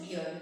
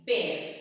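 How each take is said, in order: First: "beer" with an ee-uh vowel; low "beer", the way not to say bear; wrong pronunciation. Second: "bear" said loud with an open air vowel; correct pronunciation. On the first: Teacher forbids the error, "beer" with ee-uh. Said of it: "don't say beer". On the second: Teacher models for the class, "bear" with an air vowel. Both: Shown as a demonstration.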